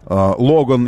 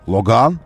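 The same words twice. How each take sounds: First: It is said the usual Russian way. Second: It is said in a French manner.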